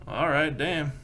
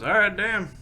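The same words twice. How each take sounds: First: Said in the usual way. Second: Higher and louder, delighted; impressed cowhand. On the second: Acted. The cowhand reacts to the big job, excited and louder. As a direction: raise it, pleased by the offer. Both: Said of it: "He goes".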